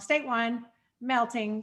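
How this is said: There is a clear pause between the words. This is how a person would read it aloud. The speaker calls it right. "I wanted to say it the way I would read it in person"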